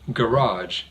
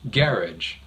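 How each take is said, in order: First: The stress is on the second syllable. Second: The stress is on the first syllable. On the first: "stresses the second syllable" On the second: "the other pronunciation stresses the first syllable"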